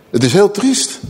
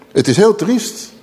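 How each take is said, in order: Both takes have the same delivery.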